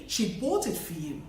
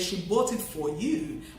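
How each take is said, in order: First: The word 'for' is reduced to a schwa. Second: The word 'for' has its full vowel. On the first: The speaker calls it right. "but you say" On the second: The speaker calls it wrong. "you wouldn't say"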